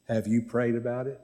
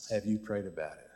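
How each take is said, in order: First: Said in the usual way. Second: Lower, softer, sober question; quiet repeat. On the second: Real, not acted. Pastor asking the congregation about their struggles, quietly. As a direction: bring it down and let the question settle.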